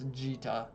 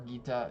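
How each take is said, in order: First: The word begins with a J sound. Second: The word begins with a hard G sound. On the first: The speaker calls it right. "It's Jita, according to the Japanese" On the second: The speaker calls it wrong. "It's not Git, Gita or Gita"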